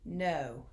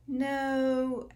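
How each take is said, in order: First: The pitch falls with finality. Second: The pitch rises like a question. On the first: There is nothing left to discuss. The speaker calls it right. "like it's over" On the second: The matter still seems open. The speaker calls it wrong. "as if there's a question to it"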